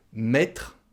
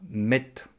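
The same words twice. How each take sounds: First: "Mettre" with its final r sounded; full ending. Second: "mette", ending on a t, no r; swallowed ending. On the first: Teacher gives the word before shortening it, full ending. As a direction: pronounce all of "Mettre", including "tr". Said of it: "ça devient mette". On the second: Teacher shows what the word becomes, swallowed ending. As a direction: cut it to "mette", stopping on the t. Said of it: "On mange la fin du mot". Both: Shown as a demonstration.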